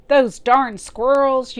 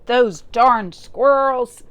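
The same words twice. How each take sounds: First: Loud, high, slow cranky yell; old man yell. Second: Put-on loud, slow, cranky old man shout; angry old man yell. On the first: Acted. Old man yelling about the squirrels, loud and slow. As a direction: bellow it like a furious old man. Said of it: "yelled Old Man Fuquire". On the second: Old man yelling at the squirrels, angry and slow. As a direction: shake your fist and yell it. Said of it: "he shook his old man fist and yelled".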